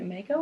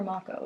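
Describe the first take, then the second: First: "Mako" said as MAY-ko; MAY-ko pronunciation. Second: "Mako" said as MAH-ko; MAH-ko pronunciation. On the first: Unsure reader trying out a place name, "Mako" as MAY-ko. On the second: Unsure reader offering the other option, "Mako" as MAH-ko. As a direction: say "Mako" with an open AH in the first syllable. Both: Shown as a demonstration. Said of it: "Is it Mako or Mako?".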